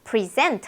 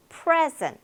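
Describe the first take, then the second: First: "present" as pri-ZENT; stress on second syllable. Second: "present" as PREZ-ent, high then falling; stress on first syllable. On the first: Teacher introduces the verb, "present" stressed on SENT. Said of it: "동사입니다". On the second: Teacher models the noun, "present" stressed on PRE. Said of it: "선물도 되고". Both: Shown as a demonstration.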